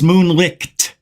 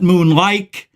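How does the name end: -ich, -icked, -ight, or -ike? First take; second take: -icked; -ike. First: The name ends in a 'licked' sound. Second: The name ends in an 'ike' sound. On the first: The speaker calls it right. "It's moonlicked" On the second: The speaker calls it wrong. "not moonlike"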